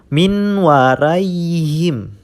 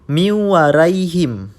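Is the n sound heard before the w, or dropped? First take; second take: heard; dropped. First: The n sound is heard before the w. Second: The n is dropped and the w is doubled.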